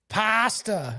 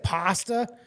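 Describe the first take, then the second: First: The first vowel sounds Canadian-style. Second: The first vowel sounds plain, not Canadian-style. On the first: The speaker calls it wrong. "Not pasta" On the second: The speaker calls it right. "I'm just gonna say pasta"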